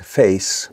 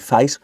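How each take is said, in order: First: It is said in an MLE accent. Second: It is said in a Cockney accent. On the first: "What we find in London now is face, more of an A type sound" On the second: "So Cockneys would say face"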